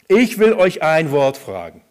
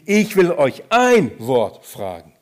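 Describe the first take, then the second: First: It is read plainly without special stress on ein. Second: The word ein is strongly stressed.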